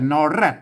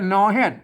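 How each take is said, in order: First: The second word begins with an r sound. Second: The second word begins with an h sound. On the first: This is the standard Thai form. "ไทยกับนอแรด" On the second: This is the Northern Thai dialect form. "ภาษาเมืองมันออกฮอนะ"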